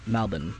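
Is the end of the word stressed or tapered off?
tapered off. The final syllable is short and tapered off. This is how Australians say it. The speaker calls it right. "Aussies we taper off... like short"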